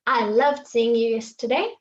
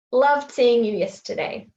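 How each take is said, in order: First: Said in the usual way. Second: Clipped casual start straight on "Loved", no "I"; dropped subject. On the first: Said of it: "Correct would be". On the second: Shown as a demonstration. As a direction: open right on a stressed "Loved". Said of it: "you just cut off the I".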